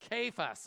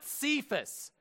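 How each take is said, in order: First: The name begins with a k sound. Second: The name begins with an s sound. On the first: The speaker calls it right. "It's a kappa. It's a kuh" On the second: The speaker calls it wrong. "No, it's not Cephas. All right, there is no C here"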